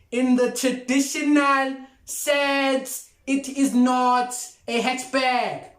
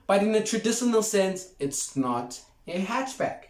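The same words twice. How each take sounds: First: Higher and slow, every word of "it is not a hatchback" pressed down; slow, emphatic repeat. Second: Said in the usual way. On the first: Shown as a demonstration. Vlogger repeats his point to viewers, slow and emphatic. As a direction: drive home "not a hatchback" like a final ruling. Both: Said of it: "I'll repeat".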